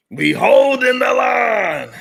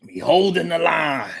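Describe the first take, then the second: First: Higher, louder, slow rallying shout. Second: Said in the usual way. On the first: Shown as a demonstration. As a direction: bellow it like a battle cry.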